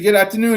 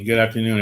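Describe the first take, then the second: First: It is said with high energy. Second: It is said with low energy.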